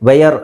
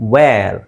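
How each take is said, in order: First: It is two syllables, starting with 'vay'. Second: It is one syllable, like 'vair'. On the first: The speaker calls it wrong. "ವೇಯರ್ ಅಲ್ಲ" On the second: The speaker calls it right. "ನಾವು ಅದನ್ನು ವೇರ್ ಅಂತ ಹೇಳ್ತೀವಿ"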